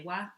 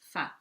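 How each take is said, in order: First: It begins with a w sound. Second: It begins with an f sound. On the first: This is the English way of saying it. "in English you would say wa" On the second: This is the Maori way of saying it. "but here it's fa"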